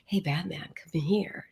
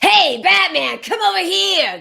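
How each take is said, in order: First: It is said in a soft, seductive voice. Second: It is said in a harsh, off-putting voice.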